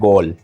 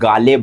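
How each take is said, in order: First: It is said as one syllable, gol. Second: It is said as two syllables, gaa-le. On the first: This is how local people say it. The speaker calls it right. "But बोलते हैं गोल" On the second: This is how it reads from the spelling. The speaker calls it wrong. "हमारे हिसाब से तो हम गाले बोलेंगे"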